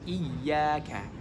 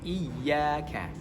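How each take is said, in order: No difference in how they are said.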